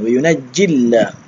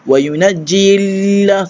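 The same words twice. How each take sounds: First: The vowel before the l is kept short. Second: The vowel before the l is drawn out long. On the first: The speaker calls it right. "Tak perlu panjang. Terus matikan" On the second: The speaker calls it wrong. "tak perlu wa yunajjilla sebab ada huruf ya ustaz kena panjang"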